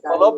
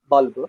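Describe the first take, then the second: First: It is said in a Punjabi accent with an extra vowel. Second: It is said in a South Indian accent. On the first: "The B U L B becomes balab in Punjab" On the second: "South India. The sound comes like bulb"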